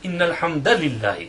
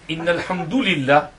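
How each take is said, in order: First: The vowel after 'alhamd' is an 'a'. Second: The vowel after 'alhamd' is not an 'a'. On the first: The speaker calls it right. "the correct uh, pronunciation is Inna alhamdulillah with nasb and fatha" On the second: The speaker calls it wrong. "He says Inna alhamdulillah"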